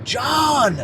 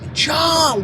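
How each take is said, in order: First: The name is called somewhat loudly, with urgency. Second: The name is yelled at full volume. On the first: The caller is getting more urgent. "now I'm yelling a little louder" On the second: The caller is at peak urgency. "I'm literally yelling"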